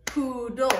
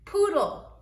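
First: Said in the usual way. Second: Poodle said higher and louder, bright model; teacher model of Poodle, higher and louder; teacher modelling. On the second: Shown as a demonstration. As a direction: Poodle called out high and loud for the class. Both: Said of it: "some words that have L E at the end".

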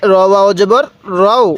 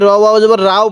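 First: "রও" with a heavy, rounded o vowel; correct heavy Ra. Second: "রাও" with an open, thin a vowel; wrong light Ra. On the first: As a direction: say "রও" full-mouthed, with o instead of a. ("রও"-তে র মোটা, গোল ও-ধ্বনিতে) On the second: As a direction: mistakenly say "রাও" with a instead of rounded o. ("রাও"-তে ভুল করে খোলা আ-ধ্বনি) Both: Shown as a demonstration. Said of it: "অনেকেই র ওয়াও জবর রাও পড়ব না".

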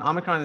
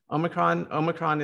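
First: "Omicron" said as AH-mi-cron; English pronunciation. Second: "Omicron" said as OH-mi-cron; American pronunciation. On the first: Host explaining the English version, short-AH "Omicron". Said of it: "is the English version of". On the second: Host showing how America says it, long-O "Omicron". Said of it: "is how we say it in America". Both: Shown as a demonstration.

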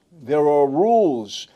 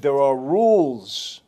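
First: Slow, grave repeat, louder; slower firmer rules. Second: Slow, deliberate, each word weighted; slow firm rules. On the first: Boss repeating the rules to Gotti, grave. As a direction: hammer it home. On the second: Retelling the boss laying down rules, slow and firm. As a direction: lay down the law slowly. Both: Retold or imitated. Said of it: "And then he said".

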